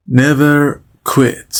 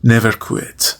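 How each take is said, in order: First: Never quit said very slowly, every sound drawn out; slow model phrase. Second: Said in the usual way. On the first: Shown as a demonstration. Teacher drawing it out slowly so students can repeat. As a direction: spell it out slowly for learners. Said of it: "teacher models phrase slowly". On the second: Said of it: "teacher repeats phrase normally".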